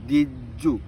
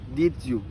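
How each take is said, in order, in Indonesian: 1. Bunyi d dan y menyatu menjadi bunyi j. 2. Bunyi d dan y tetap terpisah.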